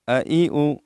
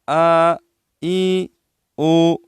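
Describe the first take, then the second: First: Each vowel is kept short. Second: Each vowel is stretched out long. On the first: The speaker calls it right. "तो इसको हम इस तरह अदा करेंगे" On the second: The speaker calls it wrong. "वो गलत तरीका यह है।"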